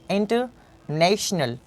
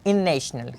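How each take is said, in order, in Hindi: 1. n के बाद वाला t साफ़ तौर पर उच्चारित होता है। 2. n के बाद वाला t छोड़ दिया जाता है।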